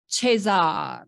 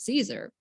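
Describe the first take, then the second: First: The name is said with a local, non-English pronunciation. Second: The name is said with an Americanized pronunciation. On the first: This is how it is said in the old country. The speaker calls it right. "it would be pronounced something like this" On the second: This is how the family in the US said it. The speaker calls it wrong. "they all said Caesar"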